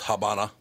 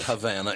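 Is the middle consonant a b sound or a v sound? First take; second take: b sound; v sound. First: The middle consonant is a b sound. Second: The middle consonant is a v sound. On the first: The speaker calls it right. "It's Habana" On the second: The speaker calls it wrong. "It's not Havana"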